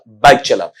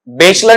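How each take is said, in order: First: The first vowel sounds like 'eye'. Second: The first vowel sounds like 'ay'. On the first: The speaker calls it right. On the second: The speaker calls it wrong. "बेचला नहीं"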